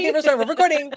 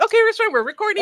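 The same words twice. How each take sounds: First: High, loud eager echo of her own line; echoing own catchphrase. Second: High, loud, eager mock of a friend announcing a recording; imitating her friend. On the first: Retold or imitated. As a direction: repeat it back, eager and bright. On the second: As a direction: chirp it like your overeager friend. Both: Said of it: "The first thing you do when I meet you is like".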